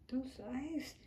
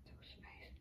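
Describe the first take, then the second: First: Said in the usual way. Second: Soft unvoiced whisper. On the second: Real, not acted. Owner whispering about the dog's sleepy eyes. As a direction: breathe it, barely voiced.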